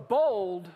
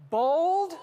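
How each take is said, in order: First: Bold said again, lower and firm with a falling close; repeated bold, lower. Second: Bold shouted high and loud; preacher hits bold hard to lift the crowd; rising punch on bold. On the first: Preacher repeats Bold, lower and firm. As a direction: settle the word Bold down and firm. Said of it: "Bold to lay hold". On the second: Preacher hammers bold high and loud. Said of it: "mightier and more bold". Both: Shown as a demonstration.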